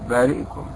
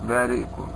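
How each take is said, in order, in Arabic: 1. الكسرة بعد الهمزة تُنطق خفيفة. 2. الكسرة بعد الهمزة تُنطق خفيفة.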